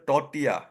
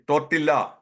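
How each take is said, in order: First: Tortilla said tor-tee-ya, no L; silent L tortilla. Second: Tortilla said tor-til-la, L sounded; old wrong tortilla. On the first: Shown as a demonstration. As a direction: drop the L in tortilla. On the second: Retold or imitated. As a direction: voice the L in tortilla as a mistake. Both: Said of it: "The L is silent".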